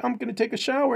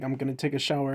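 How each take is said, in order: First: High-pitched mock girl voice; girl's voice. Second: Said in the usual way. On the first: Girl announcing a shower, high imitated voice. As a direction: put on a higher girly voice. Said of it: "the chick is like". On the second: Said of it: "the guy is like".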